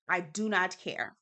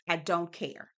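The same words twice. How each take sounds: First: "not" slowed and leaned on; stress on not. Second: Said in the usual way. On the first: Shown as a demonstration. Dismissing the cast's talk, she slows to stress "not". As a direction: drag out "I do not care".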